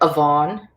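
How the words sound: The middle consonant sounds like a V. "if you're in Munster"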